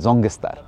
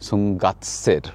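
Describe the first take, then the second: First: The name is said the way locals say it. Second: The name is read out as it is spelled. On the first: This is how people there actually say the name. "ওরা locally এটাই উচ্চারণ করে" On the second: This is how the name appears on the sign. "এখানে দেখুন লেখা রয়েছে"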